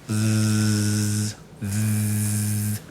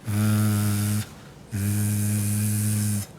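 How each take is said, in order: Both takes have the same delivery.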